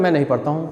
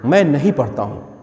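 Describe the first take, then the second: First: It is said casually, without emphasis. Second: It is said with strong emphasis.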